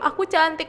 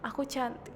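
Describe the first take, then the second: First: It is said loudly. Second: It is said quietly.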